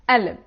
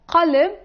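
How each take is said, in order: First: The q is dropped and replaced by a soft catch. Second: It starts with a hard q sound. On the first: This is how some Levantine regions say it. "they will say alib" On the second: This is the standard pronunciation. "instead of qalb"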